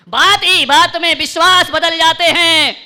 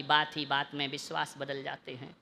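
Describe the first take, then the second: First: High, loud, slow proclamation; ringing shout to the whole hall; full-force recitation. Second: Low, soft couplet line; lowered voice, well under full volume; hushed recitation. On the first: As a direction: belt the couplet out slowly. Couplet repeated at full force. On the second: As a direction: recite it quietly and gravely. Couplet first said low, then loud. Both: Real, not acted.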